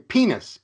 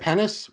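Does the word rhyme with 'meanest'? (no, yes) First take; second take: yes; no. First: The word rhymes with meanest. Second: The word does not rhyme with meanest. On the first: This is how native speakers say it. The speaker calls it right. "we say penis, penis. It rhymes. But it rhymes with cleanest or meanest" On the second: This is how the guest says it. The speaker calls it wrong. "you say penis"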